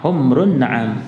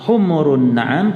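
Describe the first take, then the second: First: The first word has no vowel after the m. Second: The first word has a vowel after the m. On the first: It means red camels. The speaker calls it right. "tapi humrun" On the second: It means donkeys. The speaker calls it wrong. "jangan dibaca humurun na'am"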